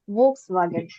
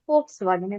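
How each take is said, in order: First: The first sound is a v sound. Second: The first sound is an f sound. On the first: The speaker calls it wrong. "all of us have done Volkswagen because it's V" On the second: The speaker calls it right. "But actually, it is going to be Volkswagen"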